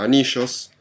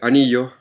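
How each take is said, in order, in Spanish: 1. Se pronuncia con acento argentino. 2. Se pronuncia con acento chileno. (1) "en Argentina anillos" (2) "en Chile anillos"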